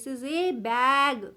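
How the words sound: The word 'a' is stressed, said as 'ay'.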